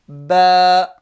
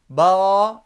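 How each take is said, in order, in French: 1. La voyelle est fine et légère. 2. La voyelle est emphatique et sombre. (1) "Vous voyez que je ne dis pas ba" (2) "c'est emphatique pour un arabe"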